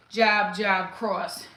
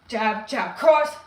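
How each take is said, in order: First: Said in the usual way. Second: "Jab, jab" then "cross" hit loud and sharp; punched combo call. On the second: Shown as a demonstration. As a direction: bark "cross" like landing the punch. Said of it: "jab, jab, cross, right?".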